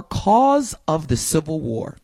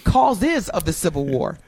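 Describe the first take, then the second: First: Said in the usual way. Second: "causes" drawn out with its plural ending; stress on causes. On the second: Shown as a demonstration. Host showing the plural search term, stress on "causes". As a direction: lean slowly on the plural in "causes". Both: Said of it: "add an S to it".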